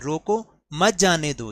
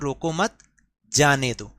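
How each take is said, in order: First: There is a pause right after 'roko'. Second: There is a pause after 'roko mat'.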